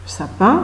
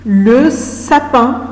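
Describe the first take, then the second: First: Said in the usual way. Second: "Le sapin" stretched very slowly; slow drawn-out. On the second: Shown as a demonstration. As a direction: draw out "Le sapin" for the class. ("Le sapin" dit très lentement) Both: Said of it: "c'est quoi le sapin".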